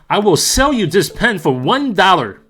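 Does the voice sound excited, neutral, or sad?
excited. It is said loudly and excitedly, like yelling. "Here is my exciting yelling across the room voice"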